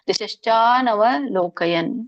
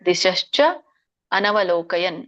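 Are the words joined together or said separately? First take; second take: joined; separately. First: The words run together into one long word. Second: The words are split into two separate words.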